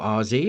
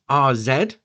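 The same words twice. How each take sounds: First: Z is said the American way, as zee. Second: Z is said the British way, as zed.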